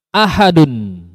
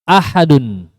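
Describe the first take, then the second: No difference in how they are said.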